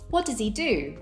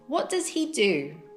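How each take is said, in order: First: The H of he is dropped, leaving e. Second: The word he is said fully with H.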